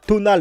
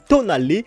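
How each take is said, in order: First: The name ends on a final L sound. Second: The name ends on a final "ay" vowel. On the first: The speaker calls it wrong. "ça ne se prononce pas Tonal" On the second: The speaker calls it right. "mais Tonalé"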